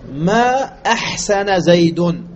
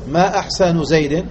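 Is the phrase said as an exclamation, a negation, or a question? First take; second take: negation; question. First: It is said as a negative statement. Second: It is said as a question. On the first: It denies that he did good. "نفينا الإحسان عنه" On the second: It asks what is finest about him. "ما أحسن زيد وجهه أم يده؟"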